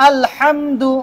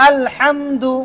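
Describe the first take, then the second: The two takes are said the same way.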